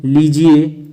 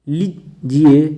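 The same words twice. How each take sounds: First: लीजिए in one piece with long "lee". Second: लीजिए broken after a short "li"; slow लीजिए, quick li, pause, "jiye"; short first i. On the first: Teacher correcting students, long ee in लीजिए. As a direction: stretch the first vowel of लीजिए. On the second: Teacher showing the error, short split li in लीजिए. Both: Shown as a demonstration. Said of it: "बड़ी की मात्रा".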